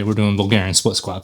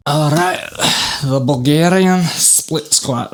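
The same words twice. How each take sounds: First: Said in the usual way. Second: Put-on slow, higher playful Scottish accent. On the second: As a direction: announce the exercise in a hammed-up Scottish accent. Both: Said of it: "That is a Scottish accent".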